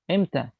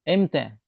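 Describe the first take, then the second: No difference in how they are said.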